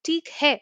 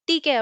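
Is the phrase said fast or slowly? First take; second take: slow; fast. First: The phrase is said slowly, each word separate. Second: The phrase is said quickly, run together. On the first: This is what the words actually are. "ஆக்சுவலி அது என்னன்னா" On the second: This is how it sounds in quick everyday speech. "ஃபாஸ்டா சொல்லும்போது கேட்கும்"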